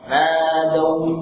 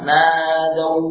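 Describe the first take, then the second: First: The vowel is held long. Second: The vowel is kept short. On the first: The speaker calls it right. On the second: The speaker calls it wrong. "Bukan nadau, ini sudah ada mana ya?"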